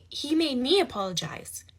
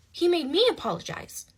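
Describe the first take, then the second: First: Indignant first telling; building disbelief. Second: Higher, louder outraged repeat; repeating it in real outrage. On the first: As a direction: state the outrage once. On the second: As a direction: say it again, more indignant. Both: Real, not acted.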